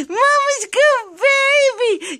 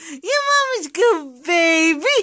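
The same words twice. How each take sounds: First: Put-on "Mama's good baby" high and slow, stretched on "good"; high sing-song. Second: Said in the usual way. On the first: Shown as a demonstration. Owner modelling a phrase for her parrot, high sing-song. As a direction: sing it up high for the bird to copy. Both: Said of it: "let's do it again".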